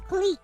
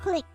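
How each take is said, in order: First: The word has a long 'ee' vowel. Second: The word has a short 'i' vowel. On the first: The speaker calls it right. "but apparently it's cleek" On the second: The speaker calls it wrong. "I always pronounce it as click"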